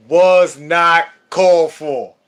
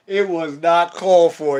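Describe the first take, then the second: First: Slow, loud, drawn-out "was not called for"; emphatic complaint. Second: Said in the usual way. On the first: Shown as a demonstration. Complaining to the principal, slow loud emphasis. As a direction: lean hard on each word of "was not called for".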